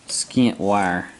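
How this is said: The first word ends with a t sound. This is the speaker's own Southern way of saying it. "I say skint"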